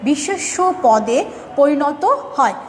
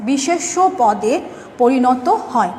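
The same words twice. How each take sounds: The two takes are said the same way.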